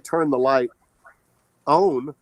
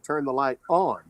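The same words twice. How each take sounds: First: It is said with a Southern American accent. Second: It is said with a general American accent. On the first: The speaker calls it wrong. "I don't say" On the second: The speaker calls it right. "I say"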